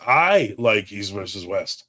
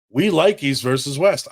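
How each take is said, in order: First: "I" held long, the rest slow and lower; stress on I. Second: "We" stressed at the head of the line. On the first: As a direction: stretch "I" to make it personal. Then speaks for himself. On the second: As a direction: lean on "We" to mean the whole group. Speaks for the group first. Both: Real, not acted.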